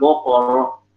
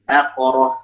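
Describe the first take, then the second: First: The first vowel is heavy and rounded, like 'o'. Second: The first vowel is light and thin, like 'a'. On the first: The speaker calls it wrong. "Jangan bokoroh" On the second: The speaker calls it right. "Jaga ketipisannya"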